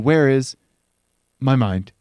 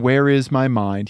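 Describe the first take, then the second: First: A pause comes, then the last two words rush together. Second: The phrase flows evenly without a pause. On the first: "put slam the last two words together after a pause" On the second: "Instead of saying"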